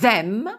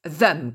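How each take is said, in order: First: The word is said in its full form. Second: The word is said in a quick reduced form.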